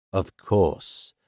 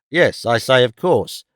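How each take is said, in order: First: Low, softened, unimpressed echo; dry. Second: Firmer, fuller-voiced repeat; Squeers insisting. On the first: Ralph echoes Squeers's assurance, dryly. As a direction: hand it back dryly. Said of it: "said Ralph dryly". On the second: Squeers resumes after Ralph's echo, insistent. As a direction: insist on the point in character. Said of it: "resumed Mister Squeers". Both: A narrator's reading.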